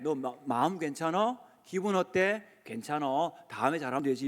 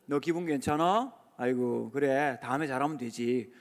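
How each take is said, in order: First: Put-on tender, quiet reassurance to a child; gentle reassurance. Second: Gentle reassurance. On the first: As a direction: say it like you'd soothe a hurt kid. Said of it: "꼭 그렇게 해주세요". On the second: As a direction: ease the child's worry gently. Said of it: "이렇게 물어보시면 안 되고". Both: Shown as a demonstration.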